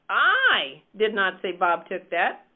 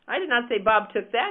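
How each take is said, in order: First: The stress is on "I". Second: The stress is on "that".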